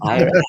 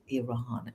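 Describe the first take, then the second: First: The name begins with an 'eye' sound. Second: The name begins with an 'ee' sound. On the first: The speaker calls it wrong. "It's not Iran" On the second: The speaker calls it right. "it's called Iran"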